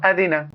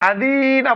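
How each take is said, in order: First: No syllable is drawn out long. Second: The middle syllable is drawn out long. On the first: The speaker calls it right. "তিন জায়গাতে কোথাও টান নেই" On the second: The speaker calls it wrong. "আদি না বললে ভুল হলো, দালে টানলাম।"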